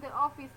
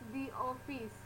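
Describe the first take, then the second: First: 'The' is said with a short weak vowel. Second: 'The' is said with a long 'ee' vowel. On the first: The speaker calls it wrong. "itu bukan the office" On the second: The speaker calls it right. "tapi the office"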